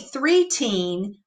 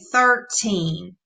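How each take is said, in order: First: The word begins with the sound 'three'. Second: The word begins with the sound 'thir'. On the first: The speaker calls it wrong. "We don't say three-teen" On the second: The speaker calls it right. "we say thirteen"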